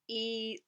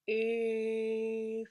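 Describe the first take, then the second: First: The vowel sounds thin and grating. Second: The vowel sounds full, round and resonant. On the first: The speaker calls it wrong. "totally grating" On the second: The speaker calls it right. "full, round, resonant"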